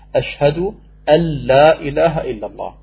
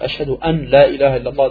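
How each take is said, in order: First: The n blends into the following l sound. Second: The n is pronounced separately before the l. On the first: The speaker calls it right. "dann verschmilzt man das N in das L, das Nun in das Lam rein" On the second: The speaker calls it wrong. "das geht gerade noch, aber das ist auch schon. Tut weh im Ohr"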